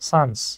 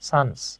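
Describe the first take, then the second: No difference in how they are said.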